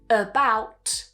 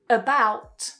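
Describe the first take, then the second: First: The first vowel is a weak schwa. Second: The same.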